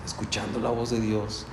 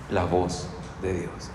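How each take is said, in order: First: Said in the usual way. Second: Soft and slow, almost reverent; hushed reverent pause on God's voice. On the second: Shown as a demonstration. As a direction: let the words sink in quietly. Repeating scripture phrase softly.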